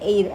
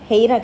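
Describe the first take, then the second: First: The word begins directly with a vowel sound. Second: The word begins with an audible h sound. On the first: The speaker calls it right. "ఎయిర్ అట్లా అంటారు" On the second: The speaker calls it wrong. "హెయిర్ కదా ఇది యాక్చువల్గా"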